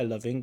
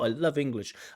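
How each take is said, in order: First: It sounds flat and relaxed, with little emphasis. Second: It sounds emotional, with extra emphasis on love. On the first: The speaker seems indifferent about the subject. The speaker calls it wrong. "it just seems like super laid back. Like, yeah" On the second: The speaker really loves the subject. The speaker calls it right. "we have a bit more emotional range. Like, oh"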